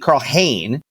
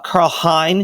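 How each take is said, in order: First: The surname rhymes with 'lane'. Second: The surname rhymes with 'line'. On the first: The speaker calls it right. "excuse me" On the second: The speaker calls it wrong. "it's not pronounced Hein. Everyone's saying it wrong"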